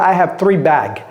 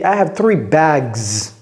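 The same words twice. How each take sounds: First: The final s of bags is silent. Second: The final s of bags is clearly pronounced. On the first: The speaker calls it wrong. "ce n'est pas" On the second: The speaker calls it right.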